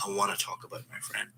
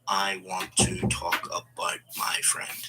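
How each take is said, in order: First: Natural linked flow, "wanna" as one word; connected speech. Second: "I want to talk about my friend" slowly, word by word; careful, separated words, no linking in "want to"; unconnected speech. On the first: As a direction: run "I wanna talk about my friend" together softly. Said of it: "then you use connected speech". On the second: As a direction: keep "want to" as two separate, fully sounded words. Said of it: "we wouldn't say". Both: Shown as a demonstration.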